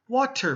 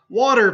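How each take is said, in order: First: The middle consonant is a clear T sound. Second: The middle consonant is a soft D sound. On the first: "very few people will say water" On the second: "I usually have a D sound"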